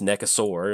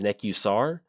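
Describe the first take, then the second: First: The name ends with a 'saur' sound. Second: The name ends with a short 'sar' sound. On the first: The speaker calls it wrong. "I'm getting the A and the U mixed up" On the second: The speaker calls it right. "I know the correct pronunciation is Nekusar"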